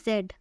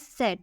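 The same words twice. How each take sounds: First: Said in the usual way. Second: Z starting with a ts sound; German letter Z. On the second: Shown as a demonstration. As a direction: say Z as German "tset". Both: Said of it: "it's pronounced as Z".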